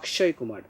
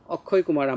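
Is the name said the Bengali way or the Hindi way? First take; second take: Hindi; Bengali. First: It is said the Hindi way, with 'sh'. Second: It is said the Bengali way, without 'sh'.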